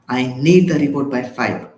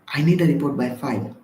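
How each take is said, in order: First: The tone sounds harsh and threatening. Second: The tone sounds soft and polite. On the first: It is a demand with an implied consequence. The speaker calls it wrong. "Sounds like the threat" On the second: It is a friendly request. The speaker calls it right. "Feels like a request"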